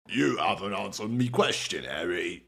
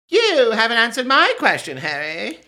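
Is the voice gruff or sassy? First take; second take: gruff; sassy. First: It is said in a rougher, non-Tonks character voice. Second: It is said in a sassy Tonks voice.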